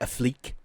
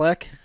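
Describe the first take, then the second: First: The name is said with a French-sounding accent. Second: The name is said the ordinary American way. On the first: Someone else says it this way. The speaker calls it wrong. "He he doesn't say it like he's French" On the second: This is how most people say it. The speaker calls it right. "we all say Ben Affleck"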